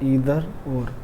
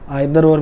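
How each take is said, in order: First: Either begins with an 'ee' vowel sound. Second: Either begins with an 'eye' vowel sound. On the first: "इसको इधर भी बोलते हैं" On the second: "आइदर और भी बोलते हैं"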